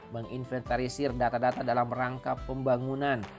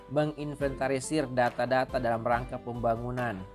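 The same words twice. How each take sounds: The two takes are said the same way.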